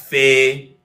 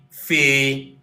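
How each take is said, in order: First: The syllable ends with an 'eh' vowel. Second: The syllable ends with an 'ee' vowel. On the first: The speaker calls it wrong. "We don't have this as fe" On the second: The speaker calls it right. "We also now go back to fi"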